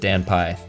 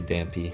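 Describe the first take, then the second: First: It is said as two parts with n. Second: It is said as one word with m. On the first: This is the owner's own way of saying it. "I pronounce it Dan Pie" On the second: This is how readers often say it. "a lot of people say Dampy if they read it out"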